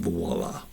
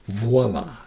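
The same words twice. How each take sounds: First: The word starts with a W sound. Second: The word starts with a V sound. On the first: The speaker calls it wrong. "mainly Americans say voila" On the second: The speaker calls it right. "voila with a V"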